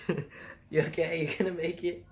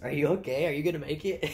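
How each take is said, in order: First: Retelling the coworker's line while laughing, higher; giggling through it, pitch up; laughing through the quote. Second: A hint of a worried coworker, louder and higher; lightly voiced coworker asking if I'm okay; concerned coworker. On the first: Retold or imitated. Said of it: "It's, "Are". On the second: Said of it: "and my coworker goes".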